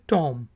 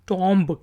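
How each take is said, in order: First: No b sound is pronounced at the end. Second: A b sound is pronounced at the end. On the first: The speaker calls it right. "लेकिन ये है टॉम" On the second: The speaker calls it wrong. "बहुत से लोग टॉम्ब कहते होंगे"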